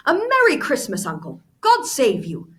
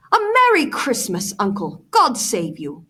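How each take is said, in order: First: High, loud merry greeting; cheerful cry. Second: Cheerful cry. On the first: Nephew greeting his uncle, cheerful loud cry. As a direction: sing out the holiday greeting. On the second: Nephew bursting in on Scrooge, cheerful loud cry. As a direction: call it out with bright holiday cheer. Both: Acted. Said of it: "cried a cheerful voice".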